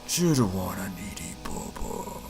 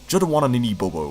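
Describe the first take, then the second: First: It is said in a low, suspicious voice. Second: It is said in a normal voice.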